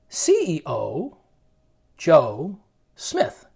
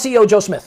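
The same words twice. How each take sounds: First: The name is drawn out slowly. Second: The name is rushed out quickly. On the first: "I gave you two extreme examples" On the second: "People are like, what did he say?"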